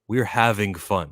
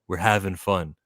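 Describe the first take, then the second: First: The final G of 'having' is clearly pronounced. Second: The final G of 'having' is dropped. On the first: "With a G at the ending" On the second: "see how I didn't pronounce the G there?"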